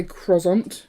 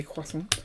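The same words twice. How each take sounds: First: Croissant said as KROZ-ont; mispronounced KROZ-ont for croissant; wrong croissant. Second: Croissant said as KWASS-unt; R-less KWASS-unt for croissant; usual croissant. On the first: Retold or imitated. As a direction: say croissant with R and a z sound. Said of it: "that's just wrong". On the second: Shown as a demonstration. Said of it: "I obviously say croissant".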